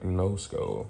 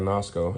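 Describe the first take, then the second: First: It sounds like 'Nova Scotia' shortened. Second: It does not sound like 'Nova Scotia' shortened. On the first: The speaker calls it right. "It is for sure Nosco, right? Nova Scotia" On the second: The speaker calls it wrong. "I was obviously saying this wrong for a while. I was saying Nosco"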